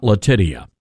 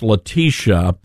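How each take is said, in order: First: Latitia said the mistaken way; mistaken name pronunciation. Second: Letitia with a long "tish" middle; correct name pronunciation. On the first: Producer quoting the host's slip, mispronounced name. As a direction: say Latitia as the botched version of the name. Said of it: "not Latitia". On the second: Producer correcting the host on a name, careful pronunciation. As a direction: say Letitia carefully as la-TEE-sha. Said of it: "her name is pronounced Letitia". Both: Retold or imitated.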